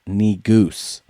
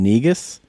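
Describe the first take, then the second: First: The second syllable sounds like 'goose'. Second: The second syllable sounds like 'us'. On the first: The speaker calls it right. "it's correctly pronounced Negoose" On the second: The speaker calls it wrong. "the guy who's in charge of the spelling bee is saying Negus ... he was mispronouncing it"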